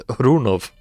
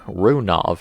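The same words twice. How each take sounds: First: Runov said louder, with a rolled R and "Ru-NOV"; corrected Russian pronunciation. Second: Runov said the American way, flat R and "RUN-ov"; American pronunciation. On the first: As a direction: fix it and say Runov the Russian way, with emphasis. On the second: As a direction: say Runov like an American would, laughing a bit. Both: Shown as a demonstration. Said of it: "that's my American accent".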